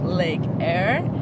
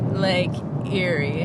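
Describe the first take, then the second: First: The name is said like 'air', one syllable. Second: The name is said like 'Erie', two syllables. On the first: This is how locals say it. "Australians call it Lake Eyre" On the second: This is the speaker's own instinctive reading. "I want to pronounce it Lake Erie"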